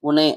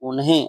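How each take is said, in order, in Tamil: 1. unhe சொல்லில் h ஒலி மௌனமாக உள்ளது. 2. unhe சொல்லில் h ஒலி உச்சரிக்கப்படுகிறது. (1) "இந்த ஹெச்சை வந்து நீங்க சைலண்ட்ல கூட ப்ரொனவுன்சியேஷன் பண்ணலாம்" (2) "உனே அப்படின்னு சொல்லி சொல்லாம"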